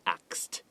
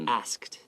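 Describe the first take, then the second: First: The k sound comes before the s sound. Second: The s sound comes before the k sound. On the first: "even a lot of Americans sometimes say axed" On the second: "you just add kt like that"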